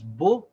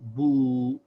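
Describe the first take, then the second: First: The vowel is short. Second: The vowel is long. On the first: "the ba by itself with a dhamma" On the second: "the long vowel"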